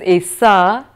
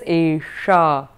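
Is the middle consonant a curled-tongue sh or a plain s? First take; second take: plain s; curled sh. First: The middle consonant is a plain s sound. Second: The middle consonant is a curled-tongue sh sound. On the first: The speaker calls it wrong. "You will hear the difference" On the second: The speaker calls it right. "And if one says Esha"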